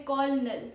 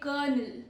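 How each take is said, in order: First: The first part is said as spelled. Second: The first part is not said as spelled. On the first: The speaker calls it wrong. "Don't say colonel" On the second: The speaker calls it right. "spelled C O L but sounds like K"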